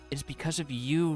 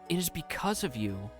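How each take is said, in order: First: It carries on as an unfinished phrase. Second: It ends as a finished sentence.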